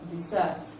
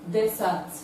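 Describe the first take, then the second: First: The stress is on the second syllable. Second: The stress is on the first syllable. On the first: It is used as a verb. "is different from the verb desert" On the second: It is used as a noun. "The pronunciation of noun desert"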